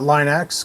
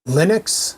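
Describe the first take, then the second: First: The first syllable sounds like 'line'. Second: The first syllable sounds like 'lin'. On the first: The speaker calls it wrong. "not Line X" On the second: The speaker calls it right. "Linux, not Line X"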